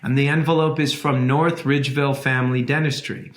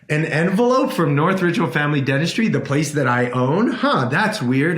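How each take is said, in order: First: Said in the usual way. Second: Quick, rising "envelope" in mock disbelief; puzzled surprise. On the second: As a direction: act puzzled at your own mail. Reacting to odd letter.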